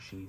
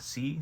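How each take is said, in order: First: The syllable begins with an sh sound. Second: The syllable begins with a plain s sound. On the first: The speaker calls it right. "it makes an S H sound instead of a normal S sound" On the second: The speaker calls it wrong. "a lot of people would think it's sa, si, su, se, so, but it's just not"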